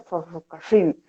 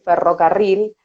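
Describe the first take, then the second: First: The R is dragged, Tucumán style. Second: The R is a standard rolled trill.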